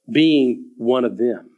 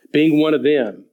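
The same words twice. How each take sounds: First: "Being one of them" said very slowly and low; emphasized phrase. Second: Said in the usual way. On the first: Shown as a demonstration. Preacher stresses the added phrase to the congregation, slow. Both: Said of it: "notice what's added here".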